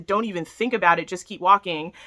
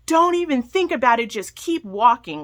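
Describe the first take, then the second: First: Said in the usual way. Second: Imitating a rude attendant shouting; mock yell of a pool attendant; retold yell. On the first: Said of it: "I get yelled at to". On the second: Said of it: "this pool attendant yells at me".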